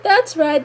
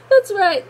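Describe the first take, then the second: First: High, excited fan agreement, slightly calmer repeat; excited cheer. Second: Excited cheer. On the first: Fan still cheering Toph, a bit calmer, excited. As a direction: repeat it as the cheer settles a little. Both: Retold or imitated. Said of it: "I was like".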